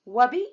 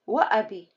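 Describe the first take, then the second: First: It is said without a glottal stop after wa. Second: It is said with a glottal stop after wa. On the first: The speaker calls it wrong. "It does not sound right. And it's wrong" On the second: The speaker calls it right. "I have to have همزة"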